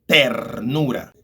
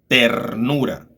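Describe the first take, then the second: No difference in how they are said.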